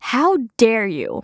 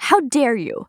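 First: Slow model phrase. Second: Mock indignant. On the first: Shown as a demonstration. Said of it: "คำต่อไป". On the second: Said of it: "ได้ยินกันบ่อยๆ".

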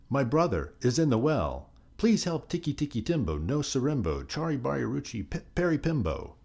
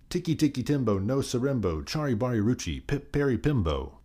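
First: High-pitched, restrained storybook shout; mild shout. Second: High-pitched, insistent repeat of the name; louder reply, mild shout. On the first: Boy begging the old man for help, mildly shouted. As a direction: plead for help in a raised pitch. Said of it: "The boy shouted". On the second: Chang repeating the name to the old man, a mildly shouted reply. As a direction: call the whole name out, pitch raised. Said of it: "Chang replied much louder". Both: A narrator's reading.

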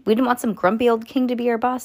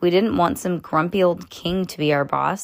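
First: Put-on quicker, higher kid voice for Judy; re-read it brightly as Judy; Judy's voice. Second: Said in the usual way. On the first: Shown as a demonstration. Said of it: "said Judy". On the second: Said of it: "said Ju".

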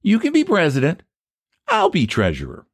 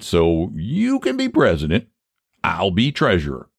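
First: High-pitched, knowing echo; pointed counter-offer. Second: Said in the usual way. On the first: Acted. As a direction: hand his own offer right back. Rival turns the offer back.

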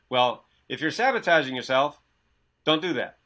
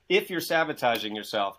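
First: Glib, know-it-all advice, a bit louder; mock guru advice. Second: Said in the usual way. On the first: Mocking the gurus' advice to his listener, smug and glib. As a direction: parrot the gurus' empty fix. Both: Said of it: "you know what they said before me".

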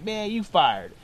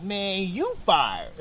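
First: Jokey mock firing; joking. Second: Slow, drawn-out mock firing; joking. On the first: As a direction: toss it off as a casual gag. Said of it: "like, joking with me". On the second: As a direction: stretch it out, tipping into a laugh. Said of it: "didn't really laugh like that".

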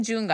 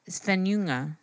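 First: Junga with a hard English J at the start. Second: Svenjunga with the J softened to a y sound; silent J. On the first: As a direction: say Junga with the J sounded as in "jungle". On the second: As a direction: glide through Svenjunga as "sven-yunga", no hard J. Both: Shown as a demonstration. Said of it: "you don't really pronounce the J".

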